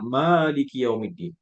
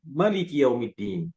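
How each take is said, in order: First: The first vowel 'ma' is held long. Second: The first vowel 'ma' is kept short. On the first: God is the owner of the Day of Judgment. "panjang ma-nya ya" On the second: God is the king of the Day of Judgment. "Mereka membacanya dengan pendek"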